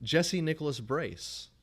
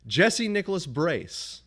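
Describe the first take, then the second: First: Each name said slowly and higher, word by word; slow deliberate dictation. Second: Slow, high, loud, word by word; exasperated slow dictation. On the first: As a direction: spell out the name for a machine. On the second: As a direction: spell it out to a stubborn machine. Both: Retold or imitated. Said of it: "And I said".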